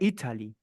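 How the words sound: The T is a crisp, clear T sound. This is the British way of saying it. "se fosse o inglês britânico"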